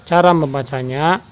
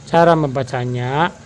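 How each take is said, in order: No difference in how they are said.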